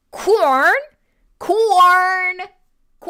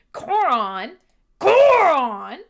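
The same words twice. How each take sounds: First: "corn" as one loud, higher syllable. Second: "Coron" drawn over two syllables, rhyming with moron; name like moron. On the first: Streamer mispronounces viewer's name for fun, one-syllable "corn". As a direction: push "corn" out as a single unbroken sound. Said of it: "say it really fast with no syllables". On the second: Streamer teases viewer about the name, "Coron" like moron. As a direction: say "Coron" twice, louder and higher the second time. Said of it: "could potentially be Coron like moron". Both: Shown as a demonstration.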